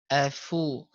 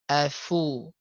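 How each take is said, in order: The two takes are said the same way.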